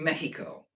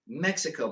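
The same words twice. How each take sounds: First: It is pronounced the native Spanish way. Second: It is pronounced the usual English way. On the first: This is the country's own name. The speaker calls it right. "It's Mexico, right?" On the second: This is the habitual local name. The speaker calls it wrong. "we call Mexico Mexico, but that's not how you say it"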